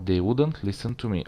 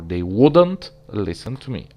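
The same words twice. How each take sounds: First: It is said in a plain, neutral way. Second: It is said with stress showing annoyance. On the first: It is a neutral statement of a habit. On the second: The habit annoys the speaker.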